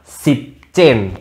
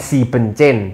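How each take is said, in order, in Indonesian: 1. Suku kata 'en' di tengah dihilangkan. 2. Suku kata 'en' di tengah dipertahankan. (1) "Jadi en-nya dibuang" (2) "bukan si bencen"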